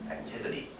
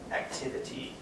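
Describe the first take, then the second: First: The unstressed vowels are reduced to schwa. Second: Each vowel is pronounced with its full, clear sound. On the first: The word is said as in everyday speech. "in normal speech, it becomes a schwa" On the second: The word is said in isolation for clarity. "citation form, when you use the word in an isolated way, and you just want your students to hear the clear sound of each vowel"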